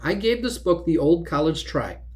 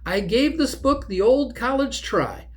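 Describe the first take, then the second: First: It is read flatly, without any inflection. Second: It is read with expressive, attitude-laden inflection.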